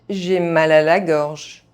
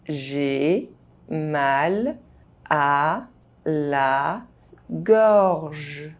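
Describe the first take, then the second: First: The phrase is spoken fast, sounds reduced. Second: The phrase is spoken very slowly. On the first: This is how native speakers say it. "fast, as a native speaker would do" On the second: Each syllable can be heard clearly. "very slowly"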